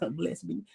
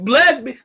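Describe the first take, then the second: First: It is said quietly and timidly. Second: It is said loudly and boldly. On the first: The speaker does not want to be heard. The speaker calls it wrong. "I don't want nobody to hear me" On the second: The praise is meant to be heard openly. The speaker calls it right. "in a loud voice"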